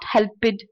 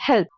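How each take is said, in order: First: The ending is an extra 'id' syllable. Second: The ending is a short 't' sound. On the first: The speaker calls it wrong. "It's not helped" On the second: The speaker calls it right. "it's help"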